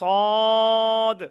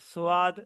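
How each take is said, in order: First: The vowel is one straight, unchanging sound. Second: The vowel glides from an o into an a. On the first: The speaker calls it right. "বলতে হবে সুন্দর করে সদ" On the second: The speaker calls it wrong. "অনেকে কি বলে সোয়াদ বলে ... এগুলো বলা যাবে না"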